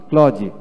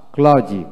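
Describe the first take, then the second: No difference in how they are said.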